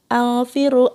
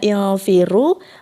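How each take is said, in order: First: The word begins with an a vowel. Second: The word begins with an i vowel. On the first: The speaker calls it wrong. "malah alfiru" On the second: The speaker calls it right. "Harusnya ilfiru"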